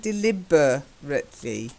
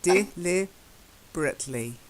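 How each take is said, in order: First: Every vowel in the word is pronounced fully. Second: A middle vowel is swallowed and disappears. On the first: The speaker calls it wrong. "you're saying deliberately" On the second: The speaker calls it right. "we tend to swallow"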